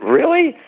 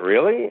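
First: A much higher and louder, squeaky really; astonished. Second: A rising, doubtful really; half-believing the compliment; mild surprise. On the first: Told again that his line is catchy, astonished. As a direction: burst out in disbelief. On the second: Hearing that his line is catchy, mildly surprised. Friend praises the no soup line. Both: Retold or imitated.

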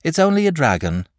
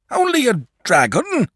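First: Put-on high boy's voice, unbothered and mildly drowsy; sleepy reassurance. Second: High, loud incredulous father; astonished cry. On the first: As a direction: play the danger down as a sleepy boy. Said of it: "said sleepily". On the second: Acted. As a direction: cry out in disbelief, rising at the end. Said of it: "cried his father".

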